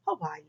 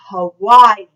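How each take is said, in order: First: Soft, low, private "Hawaii"; quiet and unprojected, just to yourself; talking to oneself. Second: Very loud, projected "Hawaii". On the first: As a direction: say it as if alone at home. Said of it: "just talking to myself". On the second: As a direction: release all your air on the word. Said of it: "release all that air on the word Hawaii". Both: Shown as a demonstration.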